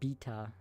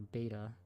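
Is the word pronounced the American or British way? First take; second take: British; American. First: It is pronounced with a British accent. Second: It is pronounced with an American accent. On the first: "the British British isms" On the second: "rather than"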